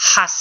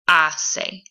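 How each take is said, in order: First: The word begins with an audible h sound. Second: The word begins directly with a vowel sound. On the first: The speaker calls it wrong. "we don't pronounce the H in Spanish, so it's not going to be hace" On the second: The speaker calls it right. "It's going to be hace"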